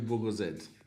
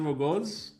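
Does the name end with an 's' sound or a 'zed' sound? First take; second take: zed sound; s sound. First: The name ends with a 'zed' sound. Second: The name ends with a short 's' sound. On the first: This is the intended Australian way of saying it. "the name is actually Wogozed. Because th- that's how an Australian would pronounce it" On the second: This is the casual way people say it. "people just say Wogos. So it's fine"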